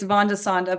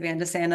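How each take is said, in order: First: The name is said with a Dutch pronunciation. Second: The name is said with a non-Dutch pronunciation. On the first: This is how a Dutch speaker says it. "my husband would say it's Van de Sande, but I'm I'm not Dutch, he is" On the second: This is how a non-Dutch speaker says it. "so I just say Van de Sande and that's fine"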